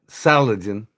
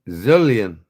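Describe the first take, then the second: First: The word begins with a hissing S sound. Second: The word begins with a buzzing Z sound. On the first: The speaker calls it wrong. "not Saladin" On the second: The speaker calls it right. "The S sounds like a Z in the name"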